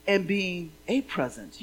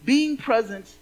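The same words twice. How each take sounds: First: "being a present" slowed, leaning on "a"; stress on "a". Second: "being present" with even weight, falling at the end; first half of a pun, said straight; wordplay, first sense. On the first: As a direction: linger on the "a" in "being a present" to reveal the pun. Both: Shown as a demonstration. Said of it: "that's a double meaning".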